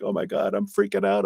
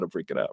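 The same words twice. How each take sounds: First: High, hammed-up panic; playful fake freak-out; mock panic. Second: Said in the usual way. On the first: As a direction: squeal it like a scared kid at a clown mask. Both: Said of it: "if it's a scary clown mask".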